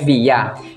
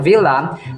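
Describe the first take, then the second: First: The L sound is left out. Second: The L sound is clearly pronounced. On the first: This is the Spanish way of saying it. "Kapag sa Spanish ay Villa. Hindi pinopronounce ang L" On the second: This is the English way of saying it. "Sa English naman, pinopronounce itong Villa"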